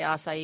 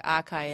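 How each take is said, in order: First: Acai said as ah-sigh-ee; correct pronunciation of acai. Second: Acai said as ah-KAI; mimicked mispronunciation of acai. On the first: Shown as a demonstration. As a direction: acai in three syllables, ah-sigh-ee. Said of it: "I'll say acai". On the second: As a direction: say acai with a hard k, like a puzzled customer. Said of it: "they look at me like acai".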